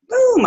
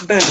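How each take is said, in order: First: Pitched way up, playful and falling; a silly high-pitched boom to end the moment; comic high falling boom; high squeaky boom. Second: Said in the usual way. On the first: Real, not acted. Playful repeated exclamation.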